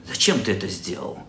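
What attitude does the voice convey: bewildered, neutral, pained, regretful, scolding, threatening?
threatening. The question sounds menacing and threatening. The speaker is threatening the listener. "с интонацией угрозы"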